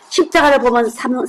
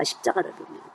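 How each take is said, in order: First: Said in the usual way. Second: Breathy whispered repeat of 십자가를 보면; whispered echo. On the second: Shown as a demonstration. Preacher echoing the key verse to the congregation in a whisper. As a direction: let 십자가를 보면 fall to a hushed whisper.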